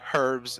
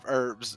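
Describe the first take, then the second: First: The h at the start is pronounced. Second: The h at the start is silent. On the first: "the English say herbs" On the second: "instead of herbs"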